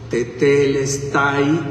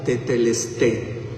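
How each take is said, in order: First: The word ends with a 'tai' sound. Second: The word ends with a 'té' sound. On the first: "para Latinoamérica está bien" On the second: "en griego moderno, lo que más se asemejaría a la pronunciación"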